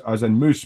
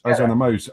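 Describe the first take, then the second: First: Said in the usual way. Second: "mouse" said like "moose"; Scottish mouse. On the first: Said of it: "as in moose, big horn". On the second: Shown as a demonstration. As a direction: explain that the Scots say "mouse" as "moose". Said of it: "as in a Scottish moose".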